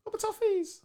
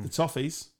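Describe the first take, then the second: First: High sing-song mock pity; mock sympathy. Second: Said in the usual way. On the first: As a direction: coo it with fake sympathy.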